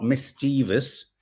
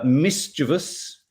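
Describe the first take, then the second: First: MISCHIEVOUS said mis-CHEE-vus, stressed in the middle; wrong mischievous. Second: MISCHIEVOUS said MIS-chiv-us, stressed first; correct mischievous. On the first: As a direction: put a long EE in mischievous. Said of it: "is not mischievous". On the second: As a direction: stress the start of mischievous, "MIS-chuh-vus". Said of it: "mischievous is not mischievous". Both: Shown as a demonstration.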